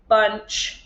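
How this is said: The word is said in a flat mechanical voice. "say it in a robot voice"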